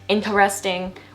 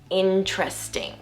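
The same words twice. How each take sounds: First: The word is said with four syllables. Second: The word is said with three syllables. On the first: The speaker calls it wrong. "Instead of saying it four syllables, like a lot of you guys will mispronounce it" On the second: The speaker calls it right. "we just say interesting. Interesting. Three syllables"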